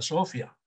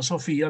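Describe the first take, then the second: First: The stress is on the first syllable. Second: The stress is on the second syllable. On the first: The speaker calls it wrong. "Si no, se leería Sofía" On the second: The speaker calls it right. "le voy a tener que poner su tilde"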